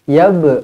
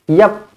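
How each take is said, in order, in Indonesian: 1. Konsonan akhir dilepas dengan lantunan. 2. Konsonan akhir dipotong tanpa lantunan. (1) "Qalqalah sughra dibaca melantun" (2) "bukan yap"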